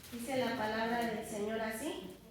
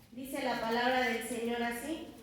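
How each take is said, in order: Both takes have the same delivery.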